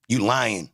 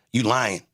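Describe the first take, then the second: No difference in how they are said.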